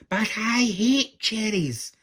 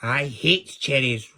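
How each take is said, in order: First: High, loud, drawn-out protest; angry shout. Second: Slow, loud, angry roar. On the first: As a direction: shout it slowly in an indignant tantrum. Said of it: "shouted Angry". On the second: Wicked queen refusing Angry's cherry cake, roared. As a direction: roar it out, dragging each word. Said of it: "roared the queen". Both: A narrator's reading.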